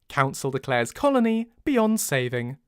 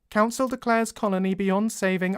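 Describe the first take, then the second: First: The voice sounds warm, as if smiling. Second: The voice sounds flat, stiff and robotic. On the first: "I could put a smile in my voice" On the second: "I'm getting sixties Cybermen"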